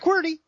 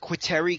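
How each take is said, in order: First: The word is said as qwerty. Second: The word is said as quitary. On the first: The speaker calls it right. "you might want to try QWERTY" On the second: The speaker calls it wrong. "she's like"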